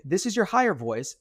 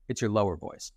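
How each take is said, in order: First: Higher voice. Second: Lower voice. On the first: Coach demonstrating speech after breathing in, higher voice. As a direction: speak high, on a fresh in-breath. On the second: Coach demonstrating speech after breathing out, lower voice. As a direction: speak on the out-breath, settling low and soft. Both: Shown as a demonstration.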